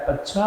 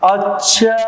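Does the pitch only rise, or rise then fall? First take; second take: only rise; rise then fall. First: The pitch rises from low to high. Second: The pitch rises and then falls again. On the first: It asks a question. "जैसे अगर प्रश्न पूछा जाता है" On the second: It expresses surprise. "आश्चर्य प्रकट करने में नीचे से ऊपर और ऊपर से नीचे"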